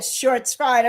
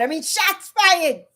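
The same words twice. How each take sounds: First: "Shorts fired" with a clear R in "Shorts", said as a wordplay; deliberate slip "Shorts fired"; pun on shorts. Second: "shots fired" said slowly, "shots" with no R; slow correction to "shots fired"; corrected to shots. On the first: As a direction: say "Shorts" like the video format, not "shots". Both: Shown as a demonstration.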